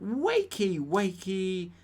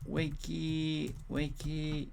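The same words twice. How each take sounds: First: High, loud play call; mock wake-up shout. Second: Slow, stretched half-hearted call; drawn-out composing aloud. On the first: Host reading the option to rouse the sleepers, mock shout. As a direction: call it out loudly to pretend sleepers. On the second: Pretend. Host writing a poll option aloud, slow and drawn out. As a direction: draw each word out as if typing it.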